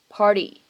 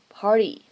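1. 这个 t 是轻柔、短促的闪音。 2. 这个 t 是轻柔、短促的闪音。

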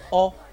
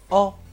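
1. 这个元音是短的。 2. 这个元音是短的。

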